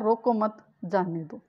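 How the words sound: There is a pause right after 'mat'. Do not stop the person; let them go. "यानी उसको रोकना नहीं है, जाने दो।"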